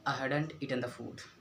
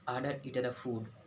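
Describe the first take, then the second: No difference in how they are said.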